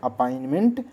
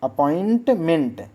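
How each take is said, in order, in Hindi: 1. 'ment' से पहले का t छोड़ दिया जाता है। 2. 'ment' से पहले का t साफ़ बोला जाता है। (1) "लेकिन बोलते क्या है, ... टी खा जाते हैं" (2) "लिखा होता अपॉइंटमेंट"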